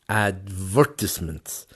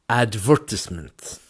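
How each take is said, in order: First: British style, stress on the second syllable. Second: The same.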